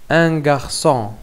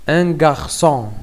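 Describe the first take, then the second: The two takes are said the same way.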